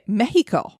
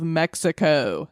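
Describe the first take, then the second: First: It is said with a Spanish pronunciation. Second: It is said with an English pronunciation.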